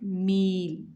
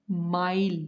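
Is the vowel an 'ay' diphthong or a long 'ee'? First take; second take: ee; ay. First: The vowel is a long 'ee' sound. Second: The vowel is an 'ay' diphthong. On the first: "His ya uh, silent has kasra before it" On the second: "because it has fatha before ya uh, silent"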